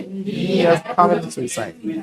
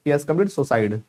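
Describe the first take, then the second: First: Very slow, every syllable stretched; teacher stretching the sentence for students; slow drawn-out demo. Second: Said in the usual way. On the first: Shown as a demonstration. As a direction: spell out He has committed suicide slowly, word by word. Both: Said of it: "Can you feel the difference?".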